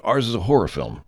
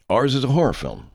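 First: Said in the usual way. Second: HORROR pitched high, falling away; emphatic repeat. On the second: Real, not acted. Director insists on the kind of movie, stressing HORROR. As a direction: drive home HORROR with a higher voice.

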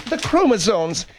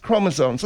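First: "chromosomes" with a long o first; corrected pronunciation. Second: "chromosomes" with an ah in the first syllable; mispronounced. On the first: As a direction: say "chromosomes" as CROH-muh-zomes. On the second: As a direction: say "chromosomes" as CRAH-muh-zomes. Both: Acted. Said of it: "Chromo-, not chromosomes".

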